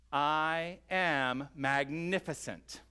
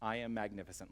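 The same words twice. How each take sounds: First: "I am magnificent" drawn out slowly and proclaimed a bit louder; exclaimed declaration. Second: Said in the usual way. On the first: Shown as a demonstration. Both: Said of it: "exclaim for yourself".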